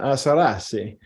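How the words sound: It is said in an Italian accent.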